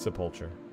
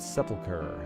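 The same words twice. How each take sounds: First: The middle part sounds like the word mulch. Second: The middle part does not sound like mulch. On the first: "I like sepulcher. Because you say mulch, sepulch" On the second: "even sepulcher has a decent enough mouthfeel"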